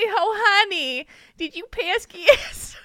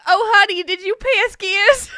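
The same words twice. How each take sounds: First: Put-on slow, high New Jersey accent. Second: Put-on high, laughing New Jersey accent. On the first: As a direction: drawl it like a Jersey mom. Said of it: "it's like a Jersey thing when they say". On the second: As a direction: ham up a Jersey mom. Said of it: "such a New Jersey thing".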